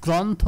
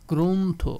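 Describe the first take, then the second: First: গ্রন্থ with an open ɔ, as grɔntho; গ্রন্থ with the open vowel; teacher marks গ্রন্থ as wrong; wrong pronunciation. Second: গ্রন্থ with o, as grontho; গ্রন্থ with a rounded o; teacher gives the right গ্রন্থ; correct pronunciation. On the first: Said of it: "গ্রন্থ না". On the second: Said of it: "গ্রন্থ না, গ্রন্থ". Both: Shown as a demonstration.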